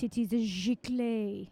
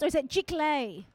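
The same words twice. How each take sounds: First: Slow mock French accent, "giclée" as "zhee-klay". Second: Giclée said as "shick-lay" with a falling end; questioning pronunciation. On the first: Host puts on French accent to say sponsor name, slow and hammed-up. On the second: Host checks the sponsor name, "Giclée" as "shick-lay". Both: Shown as a demonstration. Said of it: "I should say it with my French accent".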